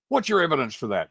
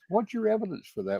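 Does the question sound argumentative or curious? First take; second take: argumentative; curious. First: The question sounds challenging and confrontational. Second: The question sounds open and genuinely interested. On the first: The asker is disputing the claim. The speaker calls it wrong. "that's just uh, argumentative" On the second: The asker sincerely wants to learn more. The speaker calls it right. "if I'm really wanting to know"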